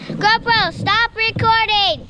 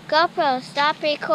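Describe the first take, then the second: First: It is said loudly. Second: It is said quietly.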